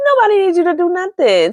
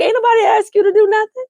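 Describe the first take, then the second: First: Higher sassy repeat with a laugh; sassy retort. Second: High, fast, sassy dismissal; sassy brush-off. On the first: Host repeating Nicole's snub, sassy and higher. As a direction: fling it back, sassy. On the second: Nicole telling her mother to back off, high and sassy. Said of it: "Nicole is like". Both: Retold or imitated.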